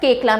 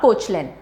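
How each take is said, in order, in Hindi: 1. इस नाम का उच्चारण 'kay-kla' जैसा होता है। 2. इस नाम का उच्चारण 'koch-lin' जैसा होता है। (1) "it is pronounced as केकला" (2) "not कोचलिन"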